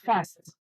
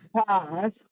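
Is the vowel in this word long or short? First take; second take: Short; Long. First: The vowel is short, with an American accent. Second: The vowel is long, with a British accent. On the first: "what we have is fast in American English" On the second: "instead of fast in British English"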